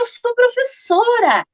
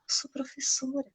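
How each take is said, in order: First: It is said firmly and proudly. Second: It is said quietly and shyly.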